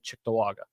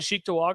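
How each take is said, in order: First: The first syllable sounds like 'chick'. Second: The first syllable sounds like 'cheek'. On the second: "I say cheek too"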